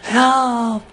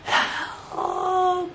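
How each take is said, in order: First: It is yelled loudly and urgently. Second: It is said quietly and timidly.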